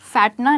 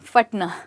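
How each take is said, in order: First: The first vowel is a longer 'ai' sound. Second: The first vowel is a short 'a' sound. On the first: The speaker calls it wrong. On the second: The speaker calls it right.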